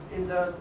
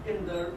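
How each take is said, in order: Both takes have the same delivery.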